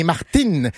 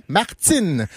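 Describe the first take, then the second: First: Martine with a bare hard T; French T. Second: Martine said as Martsine; Quebec T. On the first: Showing how France says it, Martine with plain T. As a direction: say Martine with no hiss after the T. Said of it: "En France". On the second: Contrasting with Martin, Martine as Martsine. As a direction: release the T of Martine into a hiss. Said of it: "le Z revient". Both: Shown as a demonstration.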